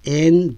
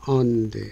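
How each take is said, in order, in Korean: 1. 이 단어는 분명한 모음으로 완전하게 발음됩니다. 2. 이 단어는 약하게, 약화된 음절로 발음됩니다. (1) "and가 아니고" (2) "기능어이기 때문에 on"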